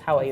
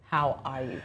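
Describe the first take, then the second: First: It is asked quickly and casually, without real interest. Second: It is asked earnestly, with real concern.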